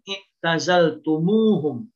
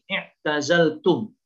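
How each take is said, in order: First: The words are joined with an added u sound. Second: The words are separated with no added u sound. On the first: "kalau dibaca bersambung i'tazaltumuhum muncul huruf waw" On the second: "kalau dipisah maka uh, wawnya itu tidak dimunculkan"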